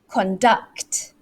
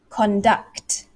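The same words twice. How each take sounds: First: The stress is on the second syllable. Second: The same.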